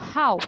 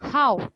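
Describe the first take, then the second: First: The pitch falls sharply downward. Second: The same.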